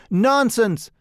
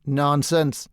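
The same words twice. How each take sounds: First: Louder, higher dismissive nonsense; emphatic retort. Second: Said in the usual way. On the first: A narrator's reading. Painter Trevor brushing off Huey's joke, loud retort. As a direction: wave the idea away with a louder Nonsense!.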